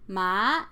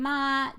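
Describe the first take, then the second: First: The pitch goes up through the syllable. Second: The pitch stays flat throughout. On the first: It means hemp. "a rising tone, is hemp" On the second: It means mother. "the flat tone ma, that's mother"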